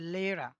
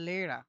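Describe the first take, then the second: The two takes are said the same way.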